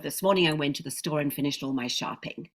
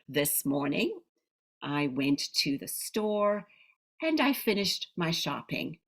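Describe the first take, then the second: First: It is said in one unbroken run. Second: It is said in short chunks with pauses.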